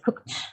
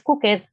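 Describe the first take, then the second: First: The ending is a plain t sound. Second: The ending is not a plain t sound. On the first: The speaker calls it right. "es cooked, el sonido t" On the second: The speaker calls it wrong. "No es cooked"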